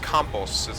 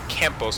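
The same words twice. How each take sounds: First: The name is said with a foreign-sounding accent. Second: The name is said with a plain American accent. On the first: "you gotta get the, the accent in it" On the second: "that's how Americans say it"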